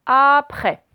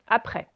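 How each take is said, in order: First: "après" slow and loud, first sound stretched; "après" said slowly and emphatically; drawn-out word model. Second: Said in the usual way. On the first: Shown as a demonstration. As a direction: stretch out the start of "après" for learners. Teacher sounds out new word.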